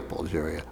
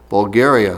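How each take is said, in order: First: "Bulgaria" with a J sound for the G, said softly. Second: "Bulgaria" with a hard G as in "go". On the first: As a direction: murmur "Bulgaria" as bul-JAIR-ia. Compares two pronunciations of Bulgaria. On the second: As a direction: say "Bulgaria" as bul-GAIR-ia. Corrects own pronunciation of Bulgaria. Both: Shown as a demonstration.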